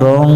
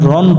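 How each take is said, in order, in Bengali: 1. এটি একটি লুকানো অনুনাসিক গুঞ্জনে শেষ হয়। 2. এটি একটি স্পষ্ট, সাধারণ ন দিয়ে শেষ হয়। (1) "অনেক স্বরের মতো উচ্চারণ করতে হবে" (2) "রন পড়া যাবে না"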